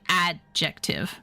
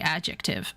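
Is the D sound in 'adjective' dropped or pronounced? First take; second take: pronounced; dropped. First: The D sound is clearly pronounced. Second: The D sound is left out. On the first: "You don't actually have to say" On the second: "you can take the D out"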